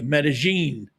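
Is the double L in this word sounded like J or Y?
J. The double L sounds like a soft J. This is how it is said in Colombia. "a double L is pronounced like a soft J"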